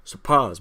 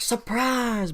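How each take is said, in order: First: Retake it with more punch; louder mock surprise. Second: Surprise shouted up high in a mock ambush; spring it on them, pitched way up; playful high ambush cry. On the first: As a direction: ambush cry hit harder. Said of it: "wait, surprise". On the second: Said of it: "colonists come out of woodworks going like".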